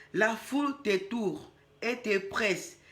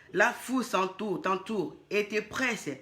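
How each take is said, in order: The two takes are said the same way.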